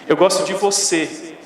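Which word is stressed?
você. The word você carries the emphasis. It highlights whom the liking is for. "você está ressaltando a quem, de quem você gosta"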